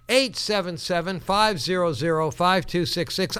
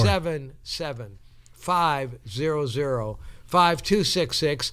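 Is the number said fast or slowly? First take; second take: fast; slowly. First: The number is said fast. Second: The number is said slowly.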